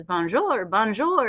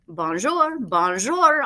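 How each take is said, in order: First: Bonjour in a light mock bird chirp; a touch of a squawking mynah. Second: Lightly voiced mynah bird squawk; a hint of a parrot chirping bonjour. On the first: Bird repeating bonjour all afternoon, lightly squawked. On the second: Mynah bird greeting the family, lightly squawked. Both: A narrator's reading. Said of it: "in bird voice".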